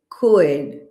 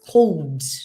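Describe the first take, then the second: First: The L sound is not pronounced at all. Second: The L sound is clearly pronounced. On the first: The speaker calls it right. "The L is silent. So we say could" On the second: The speaker calls it wrong. "They say something like this, ... This is incorrect"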